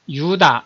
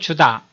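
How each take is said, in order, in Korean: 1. 이 이름은 Y 소리로 시작합니다. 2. 이 이름은 J 소리로 시작합니다. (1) "본토 발음에서는 유다 이렇게 발음이 되죠" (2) "영어식 발음으로 할 때는 주다라고"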